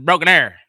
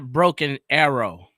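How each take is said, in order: First: The last word is reduced to one syllable. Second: The last word has two full syllables. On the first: The speaker calls it right. "that's what they call it" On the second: The speaker calls it wrong. "It's not Broken Arrow"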